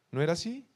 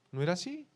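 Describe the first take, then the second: No difference in how they are said.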